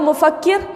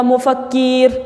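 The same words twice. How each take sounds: First: "मुफक्किर" with brief u and brief final i; correct short vowels. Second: "मुफक्कीर" with a stretched final ee; wrong long vowel. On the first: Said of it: "मैं बोल रही हूँ मुफक्किर". ("मुफक्किर" में छोटी उ और छोटी इ) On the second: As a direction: draw out the last syllable of "मुफक्कीर", keer. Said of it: "ओ के साथ और ई के साथ". ("मुफक्कीर" में ई को लंबा खींचकर) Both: Shown as a demonstration.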